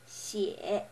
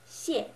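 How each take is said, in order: First: It is said with the third tone. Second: It is said with the fourth tone. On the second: "it's the fourth one"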